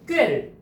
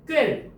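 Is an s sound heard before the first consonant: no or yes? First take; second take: no; no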